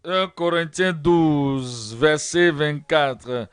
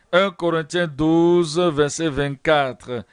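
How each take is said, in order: Both takes have the same delivery.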